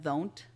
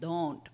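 First: The first sound is a soft th-like sound. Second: The first sound is a hard d sound. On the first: The speaker calls it wrong. "she was doing the D as a TH, like in Spanish" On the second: The speaker calls it right. "your tongue is on the top of your roof of your mouth"

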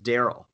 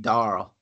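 First: The name is said in a plain accent. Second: The name is said in a flat Cajun accent.

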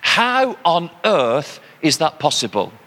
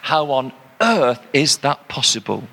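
First: The words 'on earth' carry no special emphasis. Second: The words 'on earth' carry strong emphasis. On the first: It is a common expression of disbelief. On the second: It literally means here in this world.

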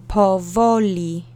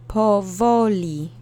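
No difference in how they are said.

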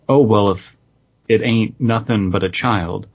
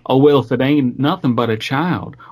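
First: It is read without a put-on regional accent. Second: It is read in a Southern American accent.

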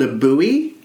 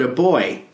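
First: It is said in an American accent. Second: It is said in an Australian accent.

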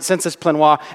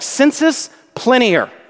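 First: The last word ends in a French-style sound. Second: The last word ends in a Latin-style sound. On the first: The speaker calls it wrong. "some theologians mispronounce it" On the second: The speaker calls it right. "It's not French, it's Latin"

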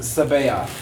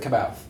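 First: The name begins with an S sound. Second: The name begins with a K sound. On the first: The speaker calls it right. "but it's Sabaoth" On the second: The speaker calls it wrong. "I always pronounce it Kabaoth"

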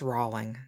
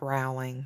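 First: The first syllable sounds like 'roll'. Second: The first syllable does not sound like 'roll'. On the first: The speaker calls it right. "It's Rowling" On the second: The speaker calls it wrong. "not Rowling"

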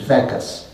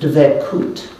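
First: It is said in Ashkenazic Eastern European pronunciation. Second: It is said in Sephardic Israeli Hebrew pronunciation.

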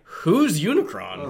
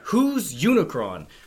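First: The question sounds plainly curious and fresh. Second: The question sounds exasperated and fed up. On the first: The speaker calls it right. "It should be more like" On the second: The speaker calls it wrong. "sounds like he's heard the name Unicron and people just keep mentioning"

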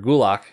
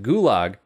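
First: The word ends with a k-like sound. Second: The word ends with a plain g sound. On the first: The speaker calls it right. "pronounced closer to gulak with more of a GK combination sound" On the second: The speaker calls it wrong. "technically we're saying it wrong"

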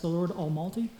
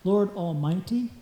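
First: It is said quickly. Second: It is said slowly.

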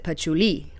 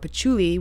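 First: The stress falls on the final syllable. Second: The stress falls before the final syllable. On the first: It names the perfume. The speaker calls it right. "with a definite accent on the end" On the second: It sounds like a vulgar word. The speaker calls it wrong. "without putting an emphasis on the end of it, it could be a very vulgar word"

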